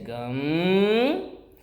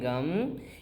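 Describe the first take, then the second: First: The syllable is stretched out long like a thread. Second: The syllable is said short, not drawn out. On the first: The speaker calls it right. "you have to stretch it like a thread" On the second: The speaker calls it wrong. "instead of saying gum"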